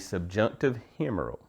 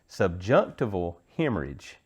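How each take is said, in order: First: The term is garbled, ending like humeral. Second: The term is said fully, ending like hemorrhage. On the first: The speaker calls it wrong. "I said that wrong" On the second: The speaker calls it right. "Let me try it again"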